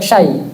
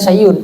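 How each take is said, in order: First: The word is cut short with no final ending. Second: The word ends with a glottal stop and -un. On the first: "pakai syai" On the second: "padahal sebenarnya syai'un"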